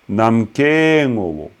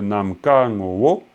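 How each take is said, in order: First: The two words run together as one linked unit. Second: The two words are said apart without linking. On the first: It means the essence of space. The speaker calls it right. "on lie les deux mots" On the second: Space and essence are two different things. The speaker calls it wrong. "On ne dit pas namka ngowo"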